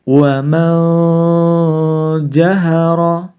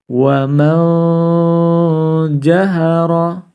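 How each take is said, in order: No difference in how they are said.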